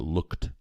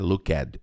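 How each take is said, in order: First: The ending e is silent, one syllable only. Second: The ending e is sounded as an extra syllable. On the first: The speaker calls it right. "Essa letra E não é pronunciada" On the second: The speaker calls it wrong. "não é looked"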